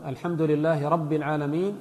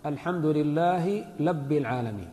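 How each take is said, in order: First: Said in the usual way. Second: "لب" with an l where rabb has r; lisping reciter turning rabb into "لب"; lisped ra. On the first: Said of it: "الراء باللام". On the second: Shown as a demonstration. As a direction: swap the r for l, saying "لب العالمين". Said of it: "وهذا يسمونه الألتغ".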